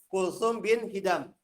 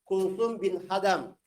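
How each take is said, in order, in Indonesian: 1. Vokal pertama nama belakangnya adalah 'i'. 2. Vokal pertama nama belakangnya adalah 'a'. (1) "Yang betul" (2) "waktu itu anak bacanya Kulsum bin Hadam. Ya, itu keliru"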